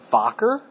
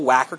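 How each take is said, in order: First: Wacker is said with a German pronunciation. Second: Wacker is said with an English pronunciation. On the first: The speaker calls it right. "they're a German company. It's pronounced Wacker" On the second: The speaker calls it wrong. "I read it as, you know"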